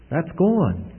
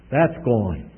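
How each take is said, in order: First: "That's gone" repeated higher, stressing gone; emphatic repeat. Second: Said in the usual way. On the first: Shown as a demonstration. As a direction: drive it home the second time.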